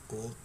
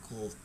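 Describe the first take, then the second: No difference in how they are said.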